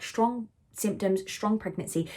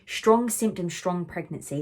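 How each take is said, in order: First: A lightly voiced mantra to calm herself; reciting a mantra. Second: Said in the usual way. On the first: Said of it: "That was the mantra I was putting to myself".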